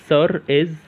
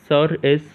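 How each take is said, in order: Both takes have the same delivery.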